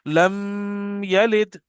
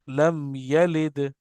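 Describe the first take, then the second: First: The m is held and nasalized into the next sound. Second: The m is pronounced clearly without nasal hold. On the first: The speaker calls it wrong. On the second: The speaker calls it right.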